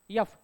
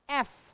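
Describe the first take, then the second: First: It begins with a y glide before the vowel. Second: It begins directly with the vowel sound. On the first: The speaker calls it wrong. "काही लोक म्हणतात यफ" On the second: The speaker calls it right. "एफ ना, not यफ"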